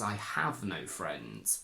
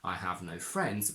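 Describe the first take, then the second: First: The verb is overstressed with frustration. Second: The words get even, emotionless stress. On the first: The speaker is annoyed about the situation. "if you want to add extra emphasis and frustration, ... we tend to overstress the verb" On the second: The speaker simply states a fact. "which is the standard and emotionless option"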